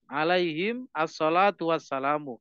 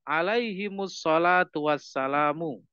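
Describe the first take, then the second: First: Alaihim ends on m before the next word. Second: Alaihim flows into the next word with -mus.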